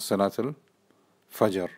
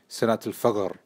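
First: The j in fajr is said as a j. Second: The j in fajr is said as a hard g. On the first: This is the standard pronunciation. "not salat al-fajr" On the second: This is how the phrase is said in Egypt. "they'll say ghim"

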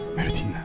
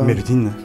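First: The name is called at a quieter volume. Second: The name is called at a louder volume. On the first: The speaker calls it wrong. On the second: The speaker calls it right.

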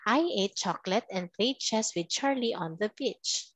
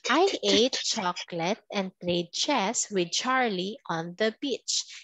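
First: The sentence is spoken at a faster pace. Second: The sentence is spoken at a slower pace.

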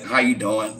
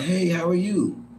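First: It sounds dull, with an attitude. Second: It sounds friendly, with a little smile.

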